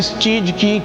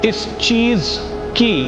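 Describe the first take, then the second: First: The word ends with a 'j' sound. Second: The word ends with a 'z' sound. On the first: The speaker calls it wrong. "Student बोलता है" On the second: The speaker calls it right. "होना चाहिए ... ज के नीचे नुक्ता लगा हुआ है"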